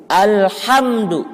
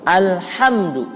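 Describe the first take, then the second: The two takes are said the same way.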